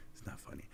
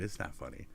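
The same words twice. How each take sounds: First: Breathy whisper, much softer; soft whispered repeat. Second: Said in the usual way. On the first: Acted.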